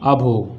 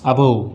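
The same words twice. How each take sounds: First: The word begins with an 'uh' vowel. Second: The word begins with an 'uh' vowel.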